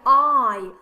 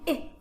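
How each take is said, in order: First: The vowel is long, as in 'eye'. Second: The vowel is short, as in 'igloo'. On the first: The speaker calls it right. "No, I'm saying I" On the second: The speaker calls it wrong. "I'm not saying I for igloo"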